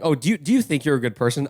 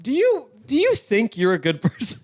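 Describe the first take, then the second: First: It sounds like a sincere, curious question. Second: It sounds like an insulting, accusing question.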